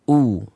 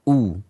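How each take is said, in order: First: A clear u with lips pushed forward. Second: A clear u with lips pushed forward.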